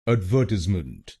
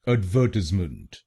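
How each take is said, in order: First: The stress is on the second syllable. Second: The stress is on the second syllable.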